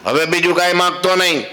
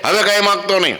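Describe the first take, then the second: First: Higher, sharp warning: હવે બીજું કાંઈ માગતો નહીં; stern housewife. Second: Stern housewife. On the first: Housewife warns the monk, higher and stern. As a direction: scold the guest, higher in pitch. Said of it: "કાંઈ ન માગું કે". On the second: Housewife warns the monk again, higher and sharp. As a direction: snap a warning, higher. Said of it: "ખાઈ લે કે". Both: Acted.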